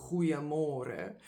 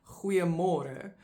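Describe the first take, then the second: First: Goeiemôre with a guttural g, falling; Afrikaans goeiemôre. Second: Goeiemôre with a throaty G, rising; Afrikaans greeting. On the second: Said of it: "very common greeting". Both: Shown as a demonstration.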